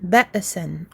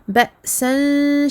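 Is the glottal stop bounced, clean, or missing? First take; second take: bounced; clean. First: The glottal stop is released with an echoing bounce. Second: The glottal stop cleanly cuts the sound. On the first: The speaker calls it wrong. "en faisant une sorte de qalqala" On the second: The speaker calls it right. "attention à bien couper le son"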